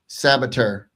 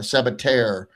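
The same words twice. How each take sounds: First: The name ends with a shorter, clipped sound. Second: The name ends with a full 'tair' sound. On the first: This is how the player himself says it. "kind of maybe shortened it a little bit" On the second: This is how it is said in Spain. "in Spain they actually pronounce it Sabater, like T A I R"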